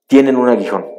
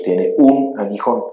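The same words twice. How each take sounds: First: Said in the usual way. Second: Tiene un aguijón, slow, with un stressed; slow emphasis. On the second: Shown as a demonstration. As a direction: lean hard on un in tiene un aguijón.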